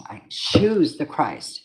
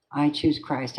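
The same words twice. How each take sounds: First: "choose" stretched out slow and weighty; slow it right down, lean into "choose"; slow solemn declaration. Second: Said in the usual way. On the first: Real, not acted. Repeats declaration slowly.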